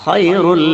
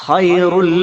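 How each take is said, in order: No difference in how they are said.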